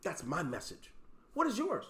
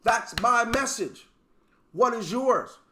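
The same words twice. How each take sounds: First: Low and soft, almost to yourself; quiet understated take. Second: Slow, with weight on my and what; slow emphatic take. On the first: Speaker quietly sets up his message before repeating it. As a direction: murmur the line down low. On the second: Speaker repeats his message to the team, slow and emphatic. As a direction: lean on each word, challenging them. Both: Shown as a demonstration.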